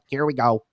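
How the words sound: The voice is light and preacher-like. It sounds weak and unoriginal. The speaker calls it wrong. "sounds like the whitest, you know, uh, preacher"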